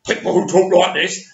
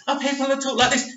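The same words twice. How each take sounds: First: Butch voice demo. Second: High, fast, camp voice, a little softer; camp voice demo. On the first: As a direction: lightly play the straight bloke. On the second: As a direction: flick into a higher, quick camp voice. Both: Shown as a demonstration.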